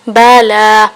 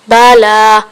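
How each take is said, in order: The two takes are said the same way.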